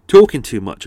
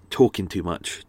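First: Talking too much, said much louder; louder repeat. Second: Said in the usual way. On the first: Real, not acted. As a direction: repeat it loud, with a blocked-up nose. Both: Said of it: "I'm getting a cold".

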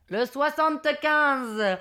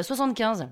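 First: Slow, stretched number announcement; bingo caller. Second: Said in the usual way. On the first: Retold or imitated. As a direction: announce it to the whole hall, drawn out. Monsieur Loyal announces the number. (annonce traînante de monsieur Loyal)

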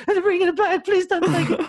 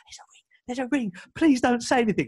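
First: Cracking, much higher pleading voice with a laugh; voice breaking. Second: A whispered start, then a tense, higher plea; desperate hushed plea. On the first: To the security guard, begging with a cracking voice. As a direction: beg as if your voice is about to crack. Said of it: "voice is breaking". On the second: To the security guard, a hushed, pleading whisper. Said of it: "Like, properly, like". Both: Retold or imitated.

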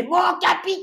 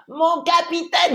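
First: Put-on high shouted child's call; kid soldier shouting. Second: Put-on high, slow child's voice; kid soldier. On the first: Boy checkpoint chief calling out to the captain, high childish shout. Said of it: "on était mort de rire". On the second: Boy checkpoint chief addressing the captain, high slow childish voice. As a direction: imitate the young boy saluting the captain, pitched up high. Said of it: "ça m'a fait marrer".

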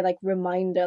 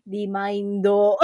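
First: Said in the usual way. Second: Put-on Remindo slow with a slight Japanese accent. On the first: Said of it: "slightly Japanese accent". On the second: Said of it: "in, like, a Jap-, slightly Japanese accent".

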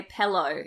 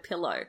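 First: "pillow" said as "pellow"; West Australian "pillow". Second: Said in the usual way. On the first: Shown as a demonstration. Telling her co-host how people from W A talk, "pellow". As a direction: make the first vowel of "pillow" an e. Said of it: "people from W A, they say". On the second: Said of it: "instead of pillow".

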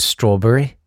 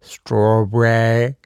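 First: Said in the usual way. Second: Strawberry stretched very slowly, savoured; Strawberry drawled as if tasting it; drawn-out strawberry. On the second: Shown as a demonstration. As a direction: linger over each part of Strawberry. Savouring the word.

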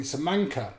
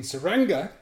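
First: "Samanka" with M and NK, higher; mistaken word. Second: "Saranga" said high and loud, with NG; correct word for insects. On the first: Storyteller revealing his panicked mistake, clearly pronounced "Samanka". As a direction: demonstrate the slip "Samanka", middle syllable mank. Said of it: "I was saying". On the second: Storyteller giving the intended word, clearly pronounced "Saranga". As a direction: demonstrate "Saranga", middle syllable rang. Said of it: "instead of saying". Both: Shown as a demonstration.

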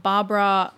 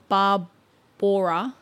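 First: Said in the usual way. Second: Barbora drawn out as "bar-BOR-a"; effortful pronunciation. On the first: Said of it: "or Barbora". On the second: Shown as a demonstration. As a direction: slowly sound out Barbora, stretching the middle. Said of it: "You're trying".

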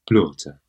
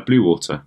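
First: "Blaughter" as one squashed word; mock-careful "Blaughter", T sounded; mimicked mispronunciation. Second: "blue water" as two clear words; normal pronunciation. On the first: Co-host practising the speaker's version, mimicked "Blaughter". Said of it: "you sound like a, um, uh, Duolingo tape". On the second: Shown as a demonstration. Co-host showing how it's usually said, normal "blue water". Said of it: "You say, uh".

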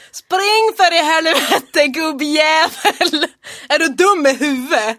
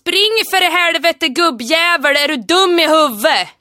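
First: Loud, slow, mock dialect shout sliding into Stockholm; failed Hälsinge imitation. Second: Loud, slow, rough Hälsinge dialect yell; Hälsinge dialect shout. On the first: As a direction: try the Järvsö yell, lose it halfway. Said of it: "Nu blev det stockholmska". (misslyckad imitation av hälsingemål) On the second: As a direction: bellow it like an angry Järvsö farmer. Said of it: "imitera den här meningen som jag säger nu". (hälsingemål, argt vrål) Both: Shown as a demonstration.

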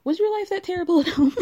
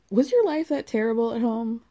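First: Pitched high and louder, hammed-up despair; mock-anguished mother. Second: Said in the usual way. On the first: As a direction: plead like a dramatic mom. Breaks into laughter reading. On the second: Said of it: "Okay. All right".

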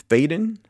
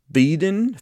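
First: "Faden" said as FAY-den; long-a pronunciation. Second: "Faden" said as FEE-den; long-e pronunciation. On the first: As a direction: say "Faden" with an ay in the first syllable. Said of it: "I'm assuming it's Faden". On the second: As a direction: say "Faden" with a long ee in the first syllable. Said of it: "It's P H E D O N and not Feeden". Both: Real, not acted.

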